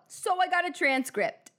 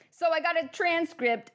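First: It slips into an imitated accent. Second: It is said in the speaker's own accent. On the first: The speaker calls it wrong. "I'm slipping into the accent" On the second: The speaker calls it right. "I'm doing my own accent"

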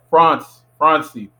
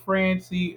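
First: The name is said the Haitian way. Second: The name is said the common English way. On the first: It sounds like a man. The speaker calls it right. "I like Francie. It sounds like a man" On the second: It sounds fancy rather than manly. The speaker calls it wrong. "Everyone says Francie, like, hey, Francie. And that sounds mad, like, fancy"

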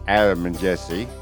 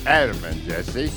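First: It is said with lighter emphasis. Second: It is said with strong emphasis.

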